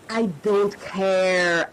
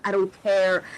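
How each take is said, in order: First: Slowed right down, leaning on I; firm and deliberate, no rush; slow emphatic repeat. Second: Said in the usual way. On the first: Real, not acted. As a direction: say it slowly, each word weighted. Repeating own vow emphatically.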